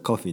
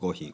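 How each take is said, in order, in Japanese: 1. イギリス英語のアクセントで言われています。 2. 日本語の発音で言われています。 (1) "イギリスだとコフィーでしょ" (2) "日本語だとコーヒー"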